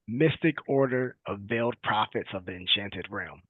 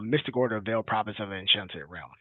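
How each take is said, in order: First: It is said more slowly. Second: It is said at normal speed.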